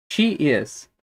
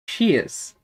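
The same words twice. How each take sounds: First: "She is" as two distinct words; full form. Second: "she is" merged into one short "she's"; contracted form. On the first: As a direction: keep "She is" uncontracted. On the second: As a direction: run "she is" together as one syllable. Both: Shown as a demonstration. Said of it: "podemos falar também é sobre as contrações".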